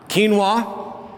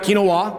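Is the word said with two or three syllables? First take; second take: two; three. First: The word is said in two syllables. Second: The word is said in three syllables. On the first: The speaker calls it right. "two syllables" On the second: The speaker calls it wrong. "Not three, not quinoa"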